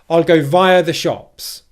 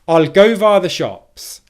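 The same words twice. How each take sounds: First: The stress falls on the word via. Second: The stress falls on the word go. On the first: "The second one is highlighting" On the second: "can you hear how I'm stressing the word go"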